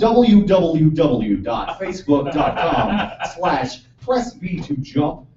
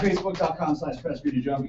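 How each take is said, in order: First: It is said at a slow pace. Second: It is said at a quick pace.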